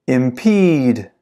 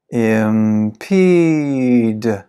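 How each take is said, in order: First: Said in the usual way. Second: Very slow, every syllable drawn out; slow-motion model for repeating; slow pronunciation. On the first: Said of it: "I'll read it fast". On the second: Shown as a demonstration. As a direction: stretch the word right out for learners. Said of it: "then I'll read it slow".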